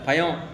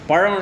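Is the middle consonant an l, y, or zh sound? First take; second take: y; zh. First: The middle consonant is a y sound. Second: The middle consonant is a retroflex zh sound. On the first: The speaker calls it wrong. "Chennai பக்கம் போனால் எல்லாம் யா தான்" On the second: The speaker calls it right. "பழம் இல்லை"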